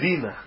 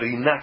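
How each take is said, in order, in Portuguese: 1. A tonicidade está na primeira sílaba. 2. A tonicidade está na última sílaba. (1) "chamam de Rina" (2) "todas elas deveriam ser oxítonas"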